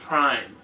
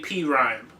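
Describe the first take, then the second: First: The name is said as one single syllable. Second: The name is said as two separate syllables. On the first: "I've always heard everybody call them Prime" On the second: "I've never heard anybody say P Rhyme"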